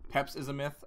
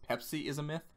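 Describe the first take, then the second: First: The name begins with one syllable, Peps. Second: The name begins with two syllables, Pepsi. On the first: This is the intended reading of the handle. The speaker calls it right. "I want to say it's" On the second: This is how people misread the handle. The speaker calls it wrong. "everyone thinks it's"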